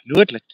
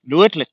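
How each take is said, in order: First: Loud falling Nuitlik; Eskimo word again. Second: Loud, high call of Nuitlik; Eskimo word. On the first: Guide repeating the Eskimo word Nuitlik loudly. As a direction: call Nuitlik loudly, dropping at the end. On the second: Walking tour guide calling out the Eskimo word Nuitlik. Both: Shown as a demonstration. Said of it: "That's Eskimo word".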